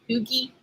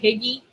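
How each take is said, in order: First: The word starts with oo and ends in ee. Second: The word is said with short i vowels. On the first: "I used to call it" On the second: "I would mispronounce it all the time. But I used to call it Higgy"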